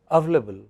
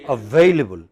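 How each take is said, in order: First: The word is said with fewer sounds. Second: The word is said with all its sounds. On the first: The speaker calls it wrong. "a lot of people pronounce it only as available. So you are using fewer sounds" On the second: The speaker calls it right. "How should it be pronounced?"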